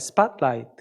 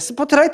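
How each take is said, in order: First: It is said with English-like sounds, 'spot-light'. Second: It is said with Korean-style syllables, 'seu-po-teu-ra-i-teu'. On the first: "제가 영어 발음이 예, 안 좋아서" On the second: "한국식으로 말씀드려야 아시죠?"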